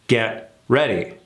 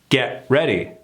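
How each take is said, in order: No difference in how they are said.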